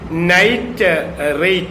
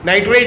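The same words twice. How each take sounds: First: A small break splits the word in the middle. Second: The word runs together with no break. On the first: Another term with a different meaning. "if we give a juncture in the middle" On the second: A chemical element. "Nitrate is an element"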